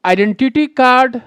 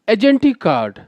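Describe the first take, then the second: First: The first word is said as eye-DEN-ti-ty. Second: The first word is said as a-JEN-tee. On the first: The speaker calls it right. "सही pronunciation होगा वो होगा आइडेंटिटी कार्ड" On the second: The speaker calls it wrong. "ना कि होगा एजेंटी कार्ड"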